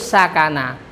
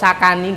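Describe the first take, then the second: First: The word ends with an a vowel. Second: The word ends with an i vowel. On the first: The speaker calls it right. "harus sakana" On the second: The speaker calls it wrong. "Gak boleh fi'il madhi kok sakani, gak boleh"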